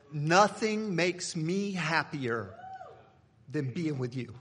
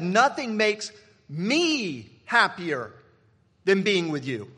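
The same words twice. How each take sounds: First: Tender reply to wife. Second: Slow, louder, leaning hard on every word; drawn-out and forceful, making the point; emphatic repeat. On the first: Retold or imitated. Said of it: "No, that's not what I said". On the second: Shown as a demonstration. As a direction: drive the line home to the congregation. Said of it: "'Cause listen to what I said".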